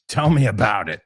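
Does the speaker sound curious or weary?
weary. It sounds weary, knowing and sarcastic. The speaker already knows and agrees. "Me lo dices o me lo cuentas"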